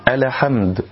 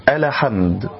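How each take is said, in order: Both takes have the same delivery.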